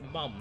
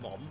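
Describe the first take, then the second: First: The vowel is a short 'uh' sound. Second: The vowel is an open 'o' sound. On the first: This is how the speaker's own community says it. The speaker calls it right. "We we pronounce it mum" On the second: This is how other people say it. The speaker calls it wrong. "not mom"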